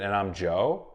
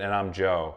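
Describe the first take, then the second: First: The voice rises at the end, like a question. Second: The voice falls at the end, like a statement. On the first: He is not sure if he is Joe. "sort of asking it like a question" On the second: He is stating that he is Joe. "he would state it like a statement"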